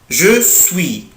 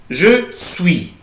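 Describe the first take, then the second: Both takes have the same delivery.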